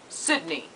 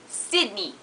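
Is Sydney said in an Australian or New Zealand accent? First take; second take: New Zealand; Australian. First: It is said in a New Zealand accent. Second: It is said in a higher Australian accent.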